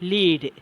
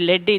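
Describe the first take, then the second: First: The vowel is long, like 'leed'. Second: The vowel is short, like 'led'. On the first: It means to guide. "அந்த லீடரோட meaning என்னென்னா வழி நடத்துதல்" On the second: It means a metal. "எல்இஏடி எப்படி pronounce பண்ணுறன்ற லெட்"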